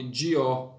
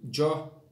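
First: "Dió" with di and ó separated; "Dió" said slowly as di-ó; split into two syllables. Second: "Jó" said as a single syllable; "Jó" in one joined sound; run together as one syllable. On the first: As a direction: give "Dió" an extra syllable. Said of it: "uma sílaba a mais". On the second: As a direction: merge de and o into one beat, "Jó". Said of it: "eu coloco Dió". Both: Shown as a demonstration.

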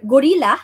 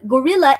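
First: Gorilla said the English way, with a clear L sound; English gorilla with a rolled-back R and L; the wrong way, in English; English pronunciation. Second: Gorilla said as Japanese gorira, with a tapped R in place of the L; Japanese pronunciation. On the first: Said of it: "not gorilla". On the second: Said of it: "gorilla in Japanese is gorilla". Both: Shown as a demonstration.

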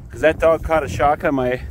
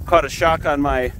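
First: Talking around a mouthful of hay; mouth full. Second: Said in the usual way. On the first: Real, not acted. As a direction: speak with hay in your mouth. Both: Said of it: "sorry, I have hay in my mouth".

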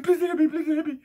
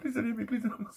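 First: Much higher, loud, whiny begging imitation; mock the man crying for mercy; mocking a scared man begging not to be hit; mock pleading. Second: Higher, laughing imitation of begging; mocking the man pleading while laughing. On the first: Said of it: "He said". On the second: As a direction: mimic his begging through laughter. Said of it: "He fucking literally went".

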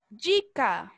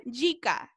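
First: "dica" said "DJEE-ka", Brazilian style; model pronunciation. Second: "Dica" as toddlers say it, "yee-ka"; small children's pronunciation. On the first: Shown as a demonstration. Teacher modelling a word for repetition, slow "djee-ka". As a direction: model "dica" with a j-like d, drawn out slowly. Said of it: "eu vou falar aqui a palavra". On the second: Retold or imitated. Small children answering mom about food, babyish "yee-ka". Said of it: "E eles falam".

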